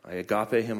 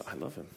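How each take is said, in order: First: Said in the usual way. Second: Soft English take. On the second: Shown as a demonstration. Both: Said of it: "And in English, it's".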